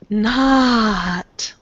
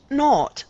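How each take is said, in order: First: The vowel has an American quality. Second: The vowel has a British quality. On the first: The speaker calls it right. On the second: The speaker calls it wrong.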